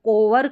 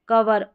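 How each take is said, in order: First: The first vowel sounds like 'oh'. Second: The first vowel sounds like 'uh'. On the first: The speaker calls it wrong. "इसको कोवर करके नहीं पढ़ेंगे" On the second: The speaker calls it right. "ओ जो है ना और ई है, इसको अ प्रोनाउंस कर रहे हैं"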